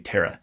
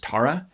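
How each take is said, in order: First: The name is said in the Canadian pronunciation. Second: The name is said in the family's own pronunciation. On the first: This is how others in Canada say it. "wherever he goes in Canadian speaking world, they say Tara" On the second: This is how the name's owners say it. "the way his family pronounces that name is Tara"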